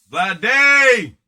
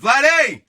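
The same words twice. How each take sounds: First: Loud, drawn-out hype call of the name; excited shout. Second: Loud, high hype call of the name; excited shout. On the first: Host revealing the card after a drum roll, loud hype shout. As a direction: sell the reveal like a ring announcer. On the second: Host hyping the pull to the viewers, loud excited shout. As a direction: announce the player like a ring announcer. Announcing the pulled player. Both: Real, not acted.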